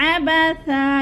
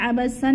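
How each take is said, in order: First: अबसा ending on a short "sa", not "san"; pausal form. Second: अबसन keeping the nasal "san" ending; wrong reading. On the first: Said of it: "एक ज़बर में बदल कर हमने पढ़ना है". (वक़फ़ में अबसा) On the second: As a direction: say अबसन, the form to avoid. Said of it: "नहीं पढ़ना". (गलत: अबसन) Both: Shown as a demonstration.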